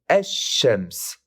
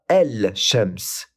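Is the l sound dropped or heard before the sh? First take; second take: dropped; heard. First: The l is dropped and the sh doubled. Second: The l sound is heard before the sh. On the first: The speaker calls it right. "mais esh-shems" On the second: The speaker calls it wrong. "On ne dit pas el-shems"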